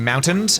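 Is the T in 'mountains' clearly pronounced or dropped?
clear. The T in the middle is clearly pronounced. "instead of saying mountains"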